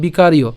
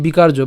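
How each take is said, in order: First: "বিকারীয়" the Sanskrit way, ending in iyo; Sanskrit-style "বিকারীয়" with no j sound; Sanskrit pronunciation. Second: "বিকার্য" the Bengali way, ending in jo; Bengali-style "বিকার্য" with a j sound; Bengali pronunciation. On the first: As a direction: say বিকারীয় as bikariyo, with a y glide. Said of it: "আমরা সংস্কৃত উচ্চারণ যেহেতু করছি". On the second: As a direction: say বিকার্য as bikarjo. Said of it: "আমরা বাংলা উচ্চারণ করলে". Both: Shown as a demonstration.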